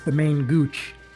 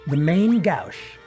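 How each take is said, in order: First: The second word sounds like 'gooch'. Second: The second word does not sound like 'gooch'.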